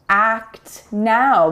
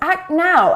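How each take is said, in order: First: The T before the N is fully released. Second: The T before the N is not released.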